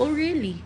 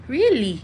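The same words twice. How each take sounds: First: "really" pitched up, soft and doubting; sarcastic disbelief. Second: A firmer, flatter "Really?" falling at the end; sarcastic disbelief. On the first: Vlogger mocking a boastful guy, sarcastic disbelief. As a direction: scoff at his self-praise, quietly. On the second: Vlogger challenging the self-proclaimed green flag, pointed sarcasm. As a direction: press the doubt home. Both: Real, not acted. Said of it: "Ikaw nag-evaluate?".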